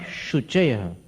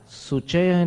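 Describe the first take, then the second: First: The word begins with an sh sound. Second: The word begins with a plain s sound. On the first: The speaker calls it right. "श और स" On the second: The speaker calls it wrong. "सुचय नहीं"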